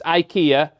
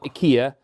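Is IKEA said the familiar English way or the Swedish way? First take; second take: familiar English; Swedish. First: The name is said the familiar English way. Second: The name is said the company's Swedish way. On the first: This is how people have always said it. The speaker calls it right. "to me, it's IKEA" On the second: This is how the company wants it said. The speaker calls it wrong. "not IKEA"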